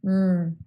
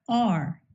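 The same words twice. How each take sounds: First: "r" as a held errr; voiced consonant sound. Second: Said in the usual way. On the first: Shown as a demonstration. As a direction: sustain "r" as a voiced sound, not the letter name. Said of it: "we must vibrate our vocal cords". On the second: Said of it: "Examples of voiced consonants".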